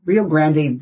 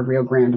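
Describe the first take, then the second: First: Rio Grande said with a Spanish-style ending, Grande as "gran-day". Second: Rio Grande with a plain English ending, Grande as "grand"; English-style Rio Grande. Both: Real, not acted. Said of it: "which one you actually say in Texas".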